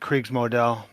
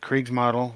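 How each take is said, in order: First: It is said with a German pronunciation. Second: It is said with an American English pronunciation. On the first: "I think the Germans would pronounce it" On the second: "I think we all pretty much"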